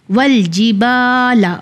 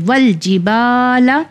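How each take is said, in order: First: Said in the usual way. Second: ول جی با لا with a held, lengthened با; stretched madd on با. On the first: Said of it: "با پہ الف مدی کا قانون آ گیا ہے". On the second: Shown as a demonstration. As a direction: draw out the با in ول جی با لا for one count. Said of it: "اسے ایک فنگر کے برابر کھینچیں گے".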